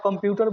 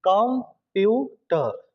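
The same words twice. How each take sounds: First: Said in the usual way. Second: computer in three slow beats, कम, प्यू, टर; teacher breaking computer apart slowly; split into syllables. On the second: Shown as a demonstration. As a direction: pause after each syllable of computer. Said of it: "computer word में विद्यार्थी कितने syllable".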